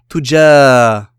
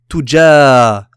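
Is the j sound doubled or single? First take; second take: single; single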